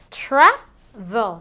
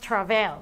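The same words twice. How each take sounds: First: The stress is on the first syllable. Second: The stress is on the second syllable. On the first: The speaker calls it right. "Se dice travel" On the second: The speaker calls it wrong. "no decimos travel"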